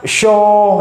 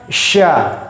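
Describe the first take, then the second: First: The letter is pronounced thick, with a darkened vowel. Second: The letter is pronounced thin, with a light vowel. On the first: The speaker calls it wrong. "Tidak boleh baca syo" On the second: The speaker calls it right. "Shin dia tipis, tidak boleh ditebalkan"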